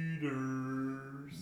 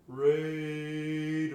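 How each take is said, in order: First: It is said in a lower voice. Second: It is said in a higher voice.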